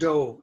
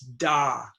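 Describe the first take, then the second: First: The vowel is a rounded oh sound. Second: The vowel is an open ah sound. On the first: The speaker calls it wrong. "it is not do" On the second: The speaker calls it right. "it's da"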